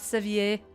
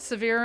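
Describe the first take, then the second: First: It is said with a French-style ending. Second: It sounds like the English word 'severe'. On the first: The speaker calls it wrong. "not sevier. That it's not French" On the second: The speaker calls it right. "they call it severe"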